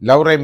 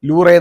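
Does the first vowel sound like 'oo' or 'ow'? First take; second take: ow; oo. First: The first vowel sounds like 'ow'. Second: The first vowel sounds like 'oo'. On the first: The speaker calls it right. "പക്ഷേ ലൗറെ museum ആണ്" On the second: The speaker calls it wrong. "ലൂറെ എന്നല്ല പറയുന്നത്"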